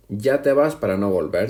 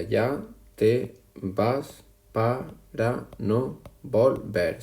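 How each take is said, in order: First: Said in the usual way. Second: Ya te vas para no volver stretched slow, syllable by syllable; slow syllable reading. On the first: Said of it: "Si lo contamos". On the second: Shown as a demonstration. Teacher to class, reading the verse slowly to count syllables. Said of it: "Si lo contamos, sería".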